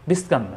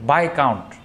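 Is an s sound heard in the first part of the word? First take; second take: yes; no. First: An s sound is heard before the k. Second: No s sound is heard before the k. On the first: The speaker calls it wrong. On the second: The speaker calls it right.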